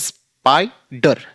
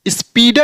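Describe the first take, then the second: First: The first vowel sounds like 'eye'. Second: The first vowel sounds like 'ee'. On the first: The speaker calls it right. "इस वावेल के अनुसार पढ़ेंगे" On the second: The speaker calls it wrong. "स्पीडर नहीं पढ़ेंगे"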